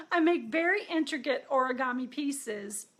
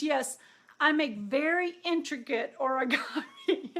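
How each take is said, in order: First: Said in the usual way. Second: Laughing through the quoted line; can't keep a straight face retelling it; real amused chuckle in the words. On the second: Real, not acted. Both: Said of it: "this is really funny".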